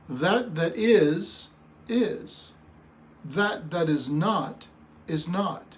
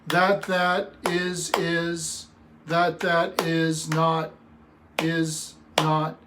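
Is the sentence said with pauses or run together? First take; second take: pauses; run together. First: There are pauses after each 'that that is'. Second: The words run together without clear pauses. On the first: What exists exists, what does not does not. "But if I say it this way" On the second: It hardly makes sense. "I'll just say something to you"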